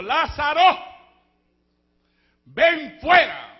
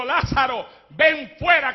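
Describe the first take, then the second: First: Slow, loud call with a long drawn fuera; calling Lazarus out. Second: Said in the usual way. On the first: Acted. Christ calling Lazarus out of the tomb, drawn-out call. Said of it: "Le dijo". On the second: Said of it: "alguien dijo".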